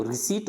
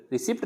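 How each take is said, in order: First: रिसीट with silent P, long EE; correct pronunciation रिसीट. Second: रिसिप्ट with the P sounded; mispronounced रिसिप्ट. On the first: Teacher correcting learners, रिसीट without any P. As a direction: say रिसीट as ri-seet. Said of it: "वो रिसीट होती है". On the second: Teacher showing the common error, रिसिप्ट with audible P. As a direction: say रिसिप्ट as ri-sipt. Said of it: "रिसिप्ट नहीं होती है". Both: Shown as a demonstration.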